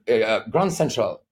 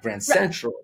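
First: The main stress falls on Grand. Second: The main stress falls on Central. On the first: The speaker calls it wrong. "Or, you know" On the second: The speaker calls it right.

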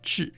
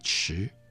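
First: It is said like zhì, with a falling tone. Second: It is said like chí, with a rising tone. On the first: This is the ordinary present-day reading. "而不是我今天讲的治" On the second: This is the traditional reading used in the department. "把治发音成为迟"

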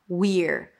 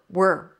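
First: It has a high ee vowel before the r. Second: It is reduced and sounds like were. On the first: "it's a high E of the we, and then you reduce it to an R" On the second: "if you want to reduce it even more ... it sounds just like the word were"

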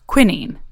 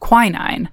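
First: The word has a British pronunciation. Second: The word has a non-British pronunciation.

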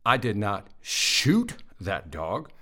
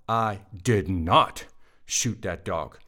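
First: The stress is on the word 'shoot'. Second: The stress is on the word 'not'. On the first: The speaker did something else to the dog. "I threw a rock at it, but I didn't shoot it" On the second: The speaker denies shooting the dog. "That's a denial. I did not"

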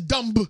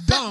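First: The final b is clearly pronounced. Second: The final b is not pronounced. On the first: The speaker calls it wrong. "No one says dumb" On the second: The speaker calls it right. "It's dumb"

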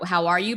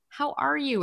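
First: It sounds like a casual, automatic greeting. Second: It sounds sincere, asked from the heart.

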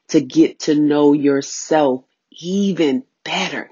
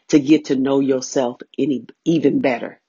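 First: The phrase is spoken at a slower pace. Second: The phrase is spoken at a normal, quicker pace.

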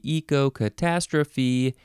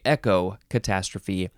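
First: The first syllable has a long 'ee' vowel. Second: The first syllable sounds like 'echo'. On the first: "Can you pronounce this a couple ways?" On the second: "Echo. I guess that's the other way"

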